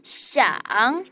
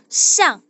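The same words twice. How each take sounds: First: The syllable is said in the third tone. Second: The syllable is said in the fourth tone. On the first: "Nada tiga itu siang" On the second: "Nada keempat itu siang"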